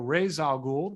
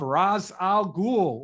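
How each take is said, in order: First: The name is said the way the cartoon says it. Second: The name is said the way the films say it. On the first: "the animated series pronunciation" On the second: "the Nolan pronunciation"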